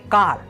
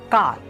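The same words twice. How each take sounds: No difference in how they are said.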